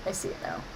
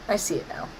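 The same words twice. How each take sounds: First: Whispered under the breath; soft unvoiced whisper. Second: Said in the usual way. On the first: Shown as a demonstration. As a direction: drop to a hushed whisper. Repeats line then whispers.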